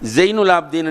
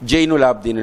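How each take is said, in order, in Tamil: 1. பெயர் z ஒலியில் தொடங்குகிறது. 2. பெயர் j ஒலியில் தொடங்குகிறது.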